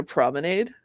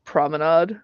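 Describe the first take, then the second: First: "promenade" with a long A, as in "made"; promenade ending in -ade. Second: "Promenade" with an open AH, as in "facade"; promenade ending in -ahd. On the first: Co-host asking why we need one, "promenade" ending in -ade. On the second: Co-host trying the other pronunciation, "Promenade" ending in -ahd. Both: Shown as a demonstration.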